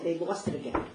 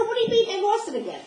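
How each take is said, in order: First: Said in the usual way. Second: Much higher, louder disbelieving cry; hysterical. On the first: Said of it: "He said". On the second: Retold or imitated. Narrator hearing the Rebbetzin is lost, hysterical high cry. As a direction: shout it in frantic disbelief. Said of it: "I'm hysterical".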